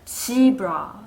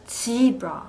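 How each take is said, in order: Both takes have the same delivery.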